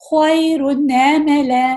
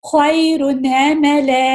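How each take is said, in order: The two takes are said the same way.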